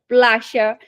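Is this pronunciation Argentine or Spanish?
Argentine. The Y is said as a sh sound. "quando você vai para a Argentina, você fala"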